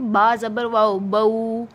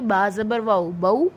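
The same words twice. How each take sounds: First: The final diphthong is stretched out long. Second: The final diphthong is said quickly and short. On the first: The speaker calls it wrong. "ये नहीं करना, ये गलत है। इनको लंबा नहीं करना" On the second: The speaker calls it right. "ये फौरन पढ़े जाएंगे"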